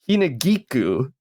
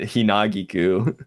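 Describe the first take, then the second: First: The syllable gi is strongly stressed. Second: The syllable gi is not stressed. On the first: The speaker calls it right. "like you really geek was a, a a prominent part of the word" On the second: The speaker calls it wrong. "it's just putting like the emphasis in the wrong spot"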